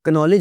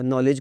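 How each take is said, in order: First: The initial k sound is pronounced. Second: The initial k sound is silent. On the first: The speaker calls it wrong. "एक्नॉलेज नहीं आपने कहा" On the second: The speaker calls it right. "नॉलेज कहा होगा"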